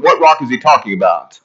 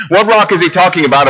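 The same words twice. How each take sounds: First: Said in the usual way. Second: "rock" punched, the question lifted higher; stress on rock. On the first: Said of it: "preacher repeats the question". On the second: Shown as a demonstration. Preacher presses the congregation on "rock" with stress. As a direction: lean hard on "rock", pitch up. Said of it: "preacher repeats the question, emphatic".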